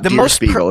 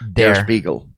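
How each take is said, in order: First: The first word does not sound like 'dare'. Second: The first word sounds like 'dare'. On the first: The speaker calls it wrong. "It's not Der Spiegel" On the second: The speaker calls it right. "It's Der. Like dare"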